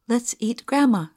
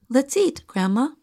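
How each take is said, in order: First: There is no pause after eat. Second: There is a pause after eat.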